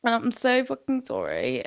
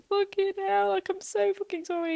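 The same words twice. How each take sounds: First: Said in the usual way. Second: High, wailing mock sob of apology; over-the-top teary apology to girlfriend; mock dramatic crying. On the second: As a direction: ham up a tearful sorry. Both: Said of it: "I'm crying dramatically".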